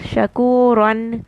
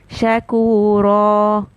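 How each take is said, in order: First: The word ends with an n sound. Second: The word ends with a long a vowel. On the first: This is the word's full form without stopping. "Shakuran is the word" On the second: This is the form used when stopping on the word. "but when I stop"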